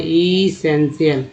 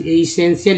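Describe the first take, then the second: First: इसेंशियल said very slowly, i-sen-shi-al syllable by syllable; slow repeat. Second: Said in the usual way. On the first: Shown as a demonstration. Teacher repeating a word for note-taking, very slow. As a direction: repeat इसेंशियल slowly so they can copy it. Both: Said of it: "copy पे note कर लीजिए".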